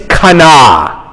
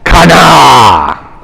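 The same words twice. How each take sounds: First: It is said in a plain speaking voice. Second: It is roared in a Hulk-like voice.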